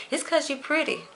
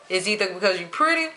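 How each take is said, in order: First: A light, high quoting voice for what everyone says; mock other people. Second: Said in the usual way. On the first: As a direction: toss off the line the way others say it to her. Quoting what people tell her.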